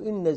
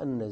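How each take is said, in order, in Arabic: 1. تبدأ الكلمة بالصوت i. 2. تبدأ الكلمة بالصوت a. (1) "أما عند الكسر" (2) "شو وجه الفتح على المصدر؟"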